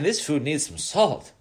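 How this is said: It is said in a complaining, disapproving way. The food is being criticised as bad. The speaker calls it wrong. "But you don't say it in a bad way"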